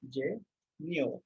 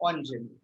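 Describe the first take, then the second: First: Engineer drawn out in French syllables, "on - zhay - nyur"; slow syllable-by-syllable pronunciation. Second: Engineer said the French way, "on-zhen-yur", as one word; French pronunciation. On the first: Teacher breaks down the word for a student, slow French syllables. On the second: Teacher models the word for a student, French pronunciation. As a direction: run "engineer" together as French "on-zhen-yur", low and falling. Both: Shown as a demonstration. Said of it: "Pronounce it as".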